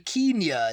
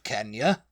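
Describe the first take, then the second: First: The word is pronounced in a posh, upper-class way. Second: The word is pronounced in an ordinary, everyday way.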